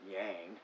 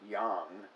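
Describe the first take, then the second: First: The word is said as English spelling suggests. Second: The word is said with Chinese pinyin sounds. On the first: The speaker calls it wrong. "not yang" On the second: The speaker calls it right. "it's supposed to approximate Chinese"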